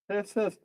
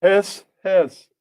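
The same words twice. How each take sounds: First: Quiet, hushed little hiss as the Snake; soft snake hiss. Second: Loud, hissed out as the Snake. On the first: The Snake hisses again to C O, quiet hiss. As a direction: hiss it under the breath. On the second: The Snake greets C O, loud playful hiss. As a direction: hiss it big like a cartoon snake. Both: Acted. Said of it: "and the Snake".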